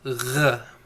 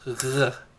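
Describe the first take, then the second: Both takes have the same delivery.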